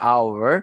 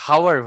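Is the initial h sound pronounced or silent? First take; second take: silent; pronounced. First: The word starts with a vowel, no h. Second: The word starts with an audible h sound. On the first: The speaker calls it right. "এইচ এর উচ্চারণটা আওয়ার হচ্ছে" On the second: The speaker calls it wrong. "হাওয়ার হচ্ছে না"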